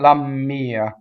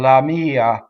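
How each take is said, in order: First: The m sound is held long and doubled. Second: The m sound is short and single. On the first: The speaker calls it wrong. "we love to double after the word la" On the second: The speaker calls it right. "it's not doubled"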